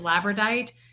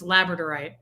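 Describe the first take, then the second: First: The word is said with a syllable missing. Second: The word is said with every syllable included. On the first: The speaker calls it wrong. "I thought it was labradite" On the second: The speaker calls it right. "It's labradorite"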